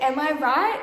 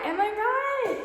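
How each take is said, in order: First: Said in the usual way. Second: Higher playful repeat of the question; sing-song echo. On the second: Real, not acted. Vlogger teasing viewers about the aesthetic, sing-song high.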